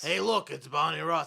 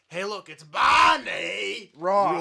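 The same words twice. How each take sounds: First: The name is said in a plain, flat way. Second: The name is called out like the cartoon.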